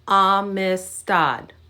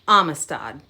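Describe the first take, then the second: First: The word is said at a slower pace. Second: The word is said at a faster pace.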